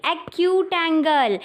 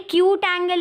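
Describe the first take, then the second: First: "एक्यूट angle" slowly, sounding the opening vowel before K; "एक्यूट" with initial A. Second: "क्यूट angle" starting straight on K, first vowel dropped; "क्यूट" without initial A. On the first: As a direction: correct it to "एक्यूट", a clear A before "cute". ("एक्यूट" धीरे, शुरू का "ए" साफ़ बोलकर) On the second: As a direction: say "क्यूट", like English cute, as the mistaken term. ("क्यूट" बिना शुरुआती "ए" के, गलत उच्चारण) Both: Shown as a demonstration. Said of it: "अरे क्यूट एंगल नहीं".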